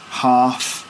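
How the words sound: It is said in a southern English accent. "So we'd say bath"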